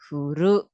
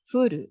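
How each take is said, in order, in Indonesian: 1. Nada bergerak dari rendah ke tinggi. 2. Nada bergerak dari tinggi ke rendah. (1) "pakainya yang naik" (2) "artinya turun itu dari atas ke bawah"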